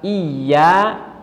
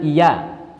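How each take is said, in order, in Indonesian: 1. Bunyi y digandakan dan ditahan. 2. Bunyi y tunggal dan pendek.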